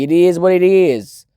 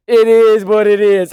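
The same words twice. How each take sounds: First: Said in the usual way. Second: Shrug. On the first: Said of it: "he's got the correct philosophy". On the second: Retold or imitated. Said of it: "Kaze just goes".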